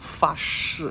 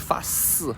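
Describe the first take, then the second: First: The second syllable begins with an sh sound. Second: The second syllable begins with an s sound. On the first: "to make a vowel, is fa shi" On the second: "some accents in China, some people would say fa si. They wouldn't pronounce the sh"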